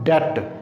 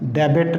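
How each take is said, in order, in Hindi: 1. b की कोई ध्वनि बिल्कुल सुनाई नहीं देती। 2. बीच में b की ध्वनि सुनाई देती है। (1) "यहाँ पे बी साइलेंट है" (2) "डेबिट नहीं पढ़ते इसको हम"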